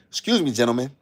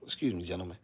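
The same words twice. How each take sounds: First: It is said with a noticeably raised voice. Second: It is said at a normal, quieter volume.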